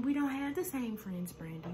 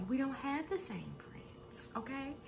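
First: Said in the usual way. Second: Soft, slow whisper with the voice dropped. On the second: Retold or imitated. Malaysia whispering the retort to Brandy. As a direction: breathe the retort as a secret.

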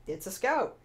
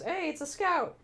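First: Said in the usual way. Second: Higher, bright delighted call; John spotting a cosplayer, calling out delighted; excited greeting. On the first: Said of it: "he's like". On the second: Retold or imitated. John greets a Scout cosplayer, higher and excited. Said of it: "John turns to me and goes".

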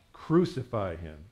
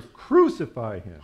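First: Said in the usual way. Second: Slow, loud drawn-out cry; louder shout. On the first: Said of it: "they all said to him". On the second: A narrator's reading. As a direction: shout it slowly as an insistent crowd. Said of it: "kept shouting even louder".

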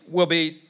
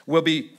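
Both takes have the same delivery.

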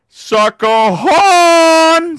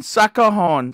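First: Long drawn-out shout on HORN; calling out. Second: Said in the usual way. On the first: Real, not acted. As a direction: bellow it high, stretching the last word. Calls out for the horn.

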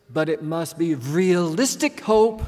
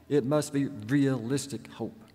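First: A louder, slow, deliberate imitation of a German accent; German-accented warning, emphatic and measured; heavy German accent. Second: Said in the usual way. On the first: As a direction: imitate her heavy German accent, leaning on each word. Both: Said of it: "in her heavy German accent".

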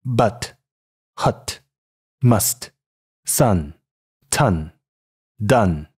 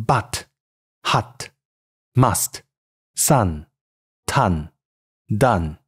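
First: American English but, hut, must, sun, ton, done, central "uh" vowel; 美式英语读音. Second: British English but, hut, must, sun, ton, done, vowel further back and open; 英式英语读音. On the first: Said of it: "美式英语". (用美式英语逐词示范，元音靠近“呃”) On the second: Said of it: "英式英语". (用英式英语逐词示范) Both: Shown as a demonstration.

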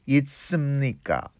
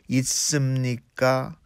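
First: Said in the usual way. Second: 있습니까 with the pitch rising on 니까 at the end; rising question tune. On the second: Shown as a demonstration. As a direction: lift 있습니까 upward as a polite question. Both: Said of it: "니까 in a rising intonation".

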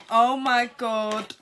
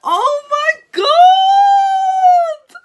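First: Said in the usual way. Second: Real overjoyed scream, much higher and louder, slow and drawn out; excited scream. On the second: Real, not acted. Unboxing a friend's present, a real joyful scream. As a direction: let the delight burst out as a drawn-out shriek. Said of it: "Sorry, I'm so happy".

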